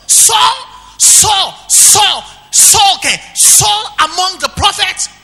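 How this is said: It is said with astonished, mocking disbelief. The speaker cannot believe it is true. The speaker calls it right. "No. It must be a joke"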